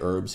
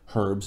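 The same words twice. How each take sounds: First: It is said the American way, without h. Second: It is said the European way, with h.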